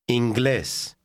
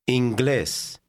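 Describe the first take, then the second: No difference in how they are said.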